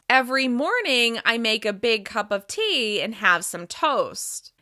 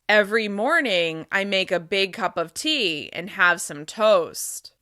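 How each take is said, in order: First: The voice resonates normally, centered in the mouth. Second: The voice resonates low, in the chest. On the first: "Here's my normal resonance" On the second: "Now I'm going to speak with chest resonance"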